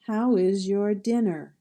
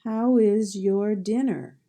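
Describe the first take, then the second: First: Said in the usual way. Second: "How is your dinner?" said slowly and clearly, stress on How; slow dictation read; slow model sentence. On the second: Shown as a demonstration. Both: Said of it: "see if you can figure out the sound".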